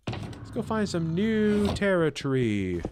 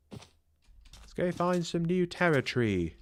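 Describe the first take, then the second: First: Lightly put-on British accent; a playful hint of an English accent. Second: Slow mock British accent. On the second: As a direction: try an English accent again, slowly. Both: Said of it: "Rate my British accent".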